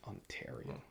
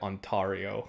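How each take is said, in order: First: It is said in a Canadian accent. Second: It is said in a British accent.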